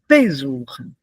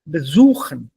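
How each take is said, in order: First: The stress is on the first syllable. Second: The stress is on the second syllable. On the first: The speaker calls it wrong. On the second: The speaker calls it right.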